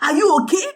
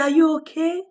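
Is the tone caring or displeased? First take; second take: displeased; caring. First: It sounds stern and displeased. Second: It sounds gentle and caring. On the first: The asker thinks she did something wrong. "she has done something wrong and he's not happy with her" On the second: The asker genuinely wants to know how she feels. "he's actually asking her if she's okay"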